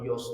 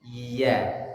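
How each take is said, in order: First: The vowel is dark and o-like. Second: The vowel is light and a-like. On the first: The speaker calls it wrong. "Ya-nya hati-hati ikut tebal jadi yos" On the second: The speaker calls it right. "tapi ya"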